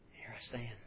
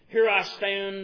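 First: It is said meekly and quietly, with submission. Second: It is said forcefully and with intense emotion. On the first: The speaker is humble and aware he may die. The speaker calls it right. "very meekly, very quietly, with submission" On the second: The speaker is defiant and dramatic. The speaker calls it wrong. "they have him shaking and gritting his teeth and face getting flushed"

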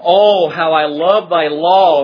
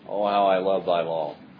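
First: It is said with warm, delighted feeling. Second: It is said flatly, without feeling. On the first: The speaker truly loves the law. The speaker calls it right. "this is an expression of delight and love" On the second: The speaker does not really care. The speaker calls it wrong. "He's not saying"

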